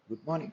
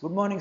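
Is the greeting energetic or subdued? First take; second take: subdued; energetic. First: The greeting is said with less energy. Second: The greeting is said with high energy. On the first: "The tones are different" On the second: "The first good morning, sir, energetic good morning"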